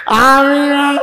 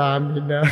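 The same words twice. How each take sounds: First: High, loud drawn-out cry; exaggerated ringing response; loud acted amen. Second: Said in the usual way. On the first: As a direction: belt it out, pitched high and stretched. Same amen repeated loudly.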